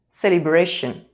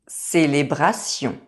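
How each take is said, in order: First: The R is made with the tongue tip raised. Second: The R is made at the back of the throat.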